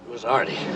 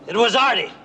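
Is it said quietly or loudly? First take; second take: quietly; loudly. First: It is said quietly. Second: It is said loudly.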